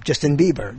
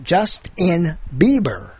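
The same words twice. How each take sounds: First: Said in the usual way. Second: "Justin Bieber" slowly, broken as Just... in... Bieber; split into words. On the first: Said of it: "as a name". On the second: Shown as a demonstration. Host shows the pun, "[name]" slowly split as words. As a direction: pull "Justin" apart into two words, just and in, before "Bieber". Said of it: "you could use a name".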